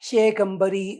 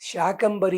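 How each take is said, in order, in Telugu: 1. మొదటి అచ్చు 'e'. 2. మొదటి అచ్చు దీర్ఘ 'aa'. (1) "కొందరు చదువుతారు శేకంబరి అని చదువుతారు" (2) "శాకంబరి అని పేరు అమ్మవారికి పేరు"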